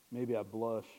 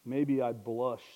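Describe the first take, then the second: First: Said in the usual way. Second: Drawn out slowly and louder, stretching each word; slowed, pointed confession; slow emphasis. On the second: Shown as a demonstration. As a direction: linger on it as if confessing.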